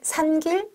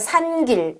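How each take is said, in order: First: It is said as a questioning echo. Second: It is said as a plain statement. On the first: The listener hints that something was wrong. "하고 물으면" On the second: The learner says the word. "이렇게 발음하는 학습자에게"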